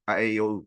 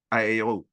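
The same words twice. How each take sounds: The two takes are said the same way.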